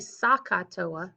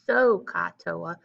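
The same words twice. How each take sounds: First: SOH and CAH share the same vowel sound. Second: SOH and CAH have clearly different vowel sounds. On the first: The speaker calls it wrong. "don't say SOHCAHTOA, right? SOHCAH, those sound the same" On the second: The speaker calls it right. "so that those sound different from one another"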